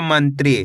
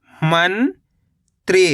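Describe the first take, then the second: First: Said in the usual way. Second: मंत्री as long rising "man", pause, "tree"; split syllables. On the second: Shown as a demonstration. Teacher breaking down मंत्री for learners, split syllables. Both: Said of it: "तो मिलके बन जाएगा".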